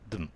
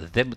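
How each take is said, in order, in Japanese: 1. その単語は弱く崩れて発音されます。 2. その単語は完全に発音されます。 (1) "どう発音するか、" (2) "ここではthem とは絶対に発音しないです。"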